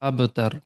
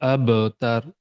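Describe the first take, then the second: First: The middle consonant has a light, natural echo. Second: The middle consonant has a strong, exaggerated echo. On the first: The speaker calls it right. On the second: The speaker calls it wrong.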